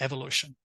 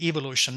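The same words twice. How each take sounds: First: It is said with an American pronunciation. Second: It is said with a British pronunciation. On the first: The speaker calls it wrong. "not evolution" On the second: The speaker calls it right. "I should pronounce it evolution ... that's the British way"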